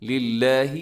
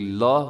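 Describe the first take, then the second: First: The L sound is light and thin. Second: The L sound is heavy and thick. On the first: The speaker calls it right. "इसको बारीक रखना है" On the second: The speaker calls it wrong. "इसको मोटा नहीं करना"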